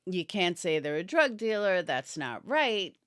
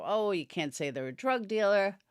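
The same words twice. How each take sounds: First: Said in the usual way. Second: Talking through a yawn; words stretched by a yawn. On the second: Real, not acted. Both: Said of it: "Sorry, I'm yawning".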